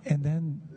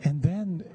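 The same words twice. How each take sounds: The two takes are said the same way.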